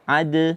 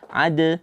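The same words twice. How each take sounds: Both takes have the same delivery.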